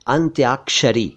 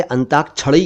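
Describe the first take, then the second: First: अंत्याक्षरी syllable by syllable, "ant-yaak-sha-ri"; correct pronunciation. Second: अंताक्षरी said as "antakchhari"; mispronounced अंताक्षरी. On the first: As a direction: sound the y and k-sh in अंत्याक्षरी. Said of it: "बोला करें अंत्याक्षरी". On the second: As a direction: drop the y and use chh in अंताक्षरी. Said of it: "ना कहा करें". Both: Shown as a demonstration.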